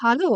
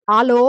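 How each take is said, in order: First: ஹலோ with a clear h at the start; correct hello. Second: ஆலோ said without the h, loud; old grandmother shouting ஆலோ into the phone; mispronounced hello. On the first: Shown as a demonstration. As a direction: correct her: ஹலோ, breathing the h. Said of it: "அது ஆலோ இல்ல, ஹலோ". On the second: A narrator's reading. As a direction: call out ஆலோ down the phone, dropping the h.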